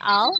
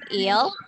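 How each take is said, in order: First: The vowel is a long 'ai' glide. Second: The vowel is a short 'i' sound. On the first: The speaker calls it right. "nih dibacanya I'll" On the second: The speaker calls it wrong. "bukan ill"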